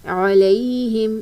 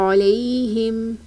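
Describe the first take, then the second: Both takes have the same delivery.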